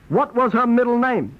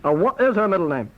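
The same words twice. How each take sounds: First: Was leaned on with a falling end; stress on was. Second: Is leaned on as a self-correction with a falling end; stress on is. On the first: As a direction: push the word was, then let the question fall. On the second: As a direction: correct yourself by hitting the word is. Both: Acted.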